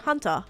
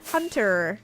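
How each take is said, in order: First: It is said in an Australian accent. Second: It is said in a non-Australian accent. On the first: This is the speaker's own way of saying it. "I would say hunter" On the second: This is how someone else says it. "Chase would say hunter"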